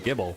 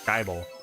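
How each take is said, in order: First: The first vowel is a short 'ih' sound. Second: The first vowel is a long 'eye' sound. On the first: This is how most people say it. "I think that's how most most people pronounce it" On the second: This is how the speaker says it. "Like like Bible"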